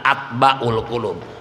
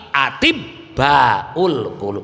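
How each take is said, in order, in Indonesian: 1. Kata pertama diucapkan pendek, seperti atbaul. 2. Kata pertama diucapkan lebih panjang, seperti atibbaul. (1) "ulah atba" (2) "tapi atibbaul qulub"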